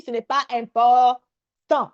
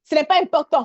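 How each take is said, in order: First: "ce n'est pas important" dit lentement, chaque mot détaché; lent et appuyé. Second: Said in the usual way. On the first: Shown as a demonstration. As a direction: insister en ralentissant sur "important". (ralentir nettement sur "ce n'est pas important" pour rassurer) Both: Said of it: "Ne t'arrête pas sur les chiffres".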